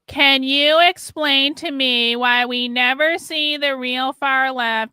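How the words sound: It is read in a mocking, condescending voice. The writer is treated as a troll. The speaker calls it wrong. "I shouldn't have read that with a voice. ... my condescending tone"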